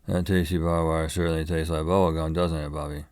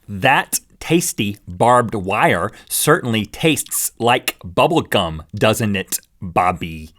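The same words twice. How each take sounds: First: The words are mumbled and run together. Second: Each consonant and vowel is clearly articulated.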